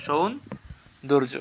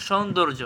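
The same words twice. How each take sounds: First: "সৌন্দর্য" slowly, long pause after সৌন; correct pronunciation. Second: Said in the usual way. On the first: Shown as a demonstration. Teacher asking correct pronunciation, "সৌন্দর্য" slow and split. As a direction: stretch সৌন, then finish "সৌন্দর্য". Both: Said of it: "সঠিক উচ্চারণ কী হবে".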